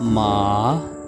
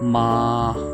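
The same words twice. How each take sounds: First: The pitch dips down, then rises. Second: The pitch stays high and flat. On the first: "going down and up" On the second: "सिर्फ़ आपने फ्लैट बोलना है"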